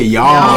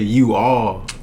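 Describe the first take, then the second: First: Contracted into one short syllable. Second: Two separate words, said in full. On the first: This is how southern speakers say it. "we say y'all" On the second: This is how northern speakers say it. "they say you all"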